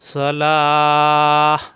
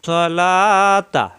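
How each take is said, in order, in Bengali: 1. শব্দটি থেমে যাওয়া h ধ্বনি দিয়ে শেষ হয়। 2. শব্দটি t ধ্বনি ও স্বরধ্বনি দিয়ে শেষ হয়। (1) "এখানে সাকিন দিলে হা হয়ে যাবে" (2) "যদি আমরা মিলিয়ে পড়ি"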